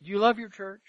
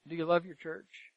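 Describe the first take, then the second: First: Said in the usual way. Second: The same question again, much softer; quieter repeat. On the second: Real, not acted. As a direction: drop the voice and ask it once more, gently.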